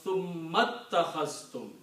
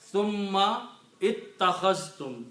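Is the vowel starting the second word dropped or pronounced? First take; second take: dropped; pronounced. First: The words run together without the starting vowel. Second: The two words are separate, with the starting vowel.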